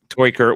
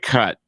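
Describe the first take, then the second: First: The name has an Americanized pronunciation. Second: The name has its original, non-American pronunciation. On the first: "we're American, we don't we don't say it like that" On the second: "technically it's like"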